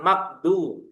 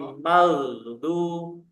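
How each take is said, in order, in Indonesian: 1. Konsonan di tengah itu k pendek yang terhenti. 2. Konsonan di tengah itu gh panjang yang mengalir. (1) "bukan makdu" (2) "maghdu diseret rokhwahnya jangan lupa"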